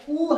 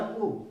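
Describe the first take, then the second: First: उ stretched long and pushed hard; heavy long u. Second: उ said short and light; a quick, easy उ with no push; simple short u. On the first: Teacher shows students the heavy long उ, stretched out slowly. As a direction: lean hard on उ and hold it out slowly, a long oo sound. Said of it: "इसमें जोर लगा के पढ़ा जाता है". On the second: Teacher shows students the simple short उ, light and quick. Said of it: "simple उ". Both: Shown as a demonstration.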